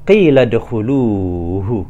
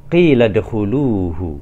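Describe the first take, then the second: No difference in how they are said.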